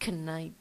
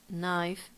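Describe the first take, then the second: First: The word starts with a k sound before n. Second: The word starts with an n sound, no k. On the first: The speaker calls it wrong. "We don't say knife" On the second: The speaker calls it right. "The K is silent"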